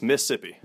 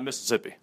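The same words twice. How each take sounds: First: "Mississippi" squeezed to "Missippi", middle syllable dropped; "Mississippi" with only one "iss"; local pronunciation. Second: "Mississippi" with all four syllables, Miss-iss-ip-pi; "Mississippi" said in full, as the version being rejected; full pronunciation. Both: Shown as a demonstration. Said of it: "there's only two S's in Mississippi".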